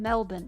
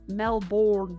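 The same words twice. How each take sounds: First: The ending does not sound like Bourne. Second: The ending sounds like the name Bourne. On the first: The speaker calls it right. "It's fucking Melbourne" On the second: The speaker calls it wrong. "It's not pronounced like Jason Bourne"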